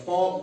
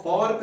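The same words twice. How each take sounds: First: "फॉक" with no R before the k; silent R. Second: "फॉर्क" with the R sounded; wrong pronunciation. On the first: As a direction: say "फॉक" as fawk. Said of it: "R यहाँ silent रहेगा". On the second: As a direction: say "फॉर्क" with an r before the k. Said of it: "फॉर्क नहीं पढ़ा जाएगा". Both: Shown as a demonstration.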